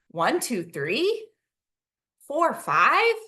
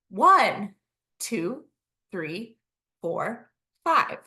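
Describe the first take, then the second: First: The voice lifts up at the end. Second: The voice does not rise at the end. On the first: "Using a questioning voice, that voice lifts up at the end" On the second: "I kind of did a short pause between it"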